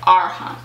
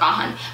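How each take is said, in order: First: The name is said with an R sound. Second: The name is said without an R sound. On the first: The speaker calls it right. "But there's an R in there" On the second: The speaker calls it wrong. "When you say it really fast, it sounds like Ahan"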